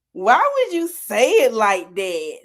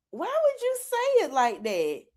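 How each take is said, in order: First: Slow, drawn-out mock disbelief. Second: High-pitched mock bafflement; mock disbelief. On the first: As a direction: stretch it out, acting baffled by their wording. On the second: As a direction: act puzzled, pitched well up. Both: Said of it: "we just look at each other".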